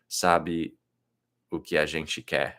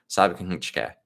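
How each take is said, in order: First: It is said carefully, with full sounds. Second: It is said fast, with sounds reduced.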